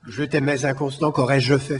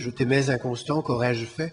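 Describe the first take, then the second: First: The vowel of the second 'je' is fully sounded. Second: The vowel of the second 'je' is barely heard. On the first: It sounds like a pupil reciting. The speaker calls it wrong. "Et le je est trop bon" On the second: The syllable still counts without standing out. The speaker calls it right. "je peux le diminuer presque à rien"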